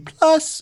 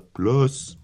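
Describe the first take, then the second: First: The word is said at a higher pitch. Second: The word is said at a lower pitch. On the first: "It used to be plus" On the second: "now we're down into the plus"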